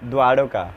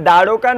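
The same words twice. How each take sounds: First: The first syllable is 'dwa' with a w-glide. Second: The first syllable is a plain 'da'. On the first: The speaker calls it right. "দৈব আকার" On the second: The speaker calls it wrong. "যেমন দ্বারকা নয়"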